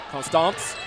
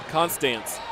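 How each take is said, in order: First: Attempted South Louisiana "Constance?", ending like "stahnce"; tentative South Louisiana pronunciation, rising; South Louisiana accent. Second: "Constance." with flat a in the second syllable; name said as CON-stance; usual pronunciation. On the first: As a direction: try it the South Louisiana way, as a question. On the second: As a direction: say "Constance." ending like "stance", falling. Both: Real, not acted. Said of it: "Trying to get the South Louisiana accent".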